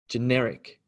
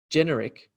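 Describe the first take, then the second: First: "generic" with NER stressed; second-syllable stress. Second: "generic" with GEN stressed; first-syllable stress. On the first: Teacher showing the difference, "generic" stressed on the second syllable. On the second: Teacher showing the difference, "generic" stressed on the first syllable. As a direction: lean on the GEN of "generic", then fall. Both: Shown as a demonstration. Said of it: "So the difference between".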